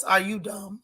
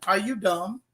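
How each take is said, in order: First: Lightly put-on celebrity voice, understated; a hint of a celebrity impression on a blunt question; a rapper's voice. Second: Said in the usual way. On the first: Host scolding a TV character, lightly voiced celebrity impression. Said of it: "In my Remy Ma voice". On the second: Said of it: "In my Remy Ma voice, are you dumb?".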